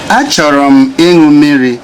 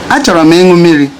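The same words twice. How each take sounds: First: Each word is pronounced fully and separately. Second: The words are linked together in speech.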